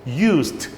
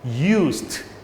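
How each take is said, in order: First: The word ends with a voiceless s-t sound. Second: The word ends with a voiceless s-t sound.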